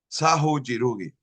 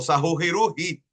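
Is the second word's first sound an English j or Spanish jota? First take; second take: English j; Spanish jota. First: The second word starts with an English j sound. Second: The second word starts with a throaty Spanish jota. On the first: It mixes Spanish and English readings. "el Sahu lo dice en español, pero el Jirugi lo dice en inglés" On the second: It is read fully in Spanish. "si lo voy a decir completamente en castellano"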